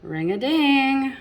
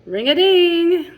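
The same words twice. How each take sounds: First: Excited chime. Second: Much higher, much louder ring-a-ding; big excited shout. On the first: Reader to children at the story's peak, excited chime. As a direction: ring it out like a bell. Climax of the bell rhyme. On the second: Reader to children, bell ringing loudest, excited shout. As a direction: belt it out like a clanging bell. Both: Acted.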